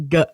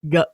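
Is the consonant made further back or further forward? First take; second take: back; back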